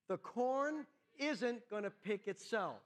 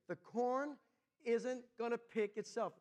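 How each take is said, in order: First: It is said with more fervour and energy. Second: It is said calmly, without extra force.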